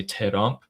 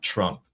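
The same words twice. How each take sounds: First: "Terump" with an extra vowel after T; two syllables, te-rump, for "Terump"; Persianized Trump. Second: Said in the usual way. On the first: Shown as a demonstration. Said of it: "which is why they say". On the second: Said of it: "not Trump".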